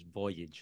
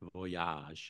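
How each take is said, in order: First: The word is said with an English pronunciation. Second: The word is said with a French-style pronunciation. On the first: The speaker calls it right. "the pronunciation in English is voyage" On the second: The speaker calls it wrong. "not voyage or something like that"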